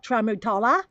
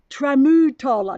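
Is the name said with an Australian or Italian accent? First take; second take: Australian; Italian. First: It is said with an Australian accent. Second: It is said with an Italian accent. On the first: The speaker calls it wrong. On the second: The speaker calls it right.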